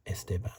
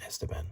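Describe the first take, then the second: First: Esteban said es-TE-ban, weight on the middle syllable; Esteban, stress on second syllable. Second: Esteban said plainly, no extra weight on the middle; the ordinary Esteban, stress not on TE; Esteban, usual stress. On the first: Card collector showing how he likes to say Esteban, es-TE-ban. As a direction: lean on the TE of Esteban. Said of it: "I like to say Esteban, more emphasis on the second syllable". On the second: Card collector giving the usual Esteban as the contrast. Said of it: "rather than Esteban". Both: Shown as a demonstration.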